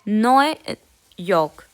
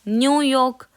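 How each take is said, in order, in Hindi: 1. पहला शब्द 'noy' जैसा बोला जाता है। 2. पहला शब्द 'new' जैसा बोला जाता है। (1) "यहाँ पे न्यू को कहते हैं नॉय" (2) "यहाँ पे ये न्यूयॉर्क ही बोला जाता है"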